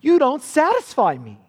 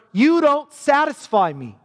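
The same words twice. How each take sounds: First: Raised, a touch of a contemptuous husband; cruel husband. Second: Raised, a hint of a cruel husband; cold husband. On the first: Acted. Preacher repeating the husband's put-down to his wife, raised and contemptuous. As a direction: say it again as a put-down. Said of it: "He trashes her". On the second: Preacher voicing the husband trashing his loyal wife, raised and cold. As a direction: hurl it at the wife with contempt. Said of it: "He says to her".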